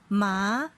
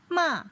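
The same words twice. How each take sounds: First: The pitch rises from middle to high. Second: The pitch falls sharply from high to low. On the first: "they have rising tone" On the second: "fourth tone is falling from the highest point"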